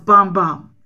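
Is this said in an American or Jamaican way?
Jamaican. It is said in a Jamaican way. This is how the original singer says it. "she's from Jamaica, so it was Bam Bam"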